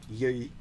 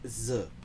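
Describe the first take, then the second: First: The word starts with a y sound. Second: The word starts with a z sound. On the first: This is how southern speakers say it. "South Vietnamese pronunciation where they say yi" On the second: This is how northern speakers say it. "the North they like z"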